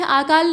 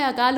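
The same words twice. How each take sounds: First: आकाल with a long आ at the start; wrong long a. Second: अकाल with a short अ at the start; correct short a. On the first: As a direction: say आकाल with the wrong, stretched first vowel. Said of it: "नहीं होता है". (गलत उच्चारण: आकाल, लंबे आ के साथ) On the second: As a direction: say अकाल with a clipped first vowel. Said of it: "होता है". (सही उच्चारण: अकाल, छोटे अ के साथ) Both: Shown as a demonstration.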